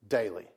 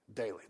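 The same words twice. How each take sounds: First: Daily said low with a falling end; stressed daily. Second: Daily repeated low and quiet; soft echo of daily. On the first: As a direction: land hard on daily. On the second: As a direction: let Daily sink in softly. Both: Shown as a demonstration. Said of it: "that word is so key".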